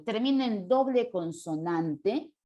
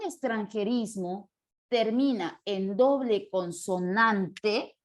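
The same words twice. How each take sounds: First: Said in the usual way. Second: Syllables drawn out at writing speed; slow dictation. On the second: Real, not acted. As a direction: stretch "consonante" out syllable by syllable. Dicta la regla mientras escribe. (dictado lento, alargando las sílabas)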